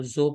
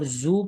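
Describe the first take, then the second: First: زو said as "zo"; mistaken majhool vowel. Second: زو said as "zoo"; correct maroof vowel. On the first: Teacher shows what people read, majhool "zo" in زو. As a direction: open the vowel of زو to "oh". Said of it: "اس کو زو پڑھتے ہیں". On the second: Teacher shows what should be read, maroof "zoo" in زو. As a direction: close the vowel of زو to "oo". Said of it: "زو پڑھنا چاہیے". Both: Shown as a demonstration.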